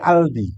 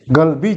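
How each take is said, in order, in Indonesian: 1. Kata ini diawali dengan hentian glotal. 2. Kata ini diawali dengan bunyi g keras.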